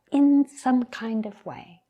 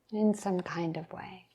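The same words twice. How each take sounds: First: Higher, firmer "in some kind of way"; emphatic first take. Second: Hushed, softer "In some kind of way"; soft reflective echo. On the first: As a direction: lift the pitch on "in some kind of way". Repeats the phrase for reflection. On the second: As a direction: let it fall away almost to a whisper. Softly echoes her own phrase. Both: Real, not acted.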